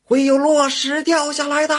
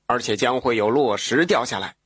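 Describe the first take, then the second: First: Calling out loud. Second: Put-on 会有落石掉下来 in a lightly lower, calm old man's voice; old man warning. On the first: Woodcutter shouts to hunters about falling rocks, high and loud. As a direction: yell the warning up the mountain at full voice. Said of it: "一边走一边喊". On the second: Old man calmly warns the woodcutter of falling rocks, lightly lower. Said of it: "old man warns woodcutter". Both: A narrator's reading.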